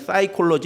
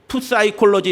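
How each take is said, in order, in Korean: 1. 이 단어는 바로 S 소리로 시작합니다. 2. 이 단어는 P 소리가 들립니다. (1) "그냥 사이콜로지 이렇게 얘기해요" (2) "푸사이콜로지 이렇게 하지 않고"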